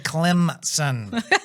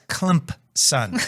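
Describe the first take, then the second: First: No p sound is heard after the m. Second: A faint p sound is heard after the m. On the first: The speaker calls it wrong. "You don't say Clemson" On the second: The speaker calls it right. "it has an invisible P in it"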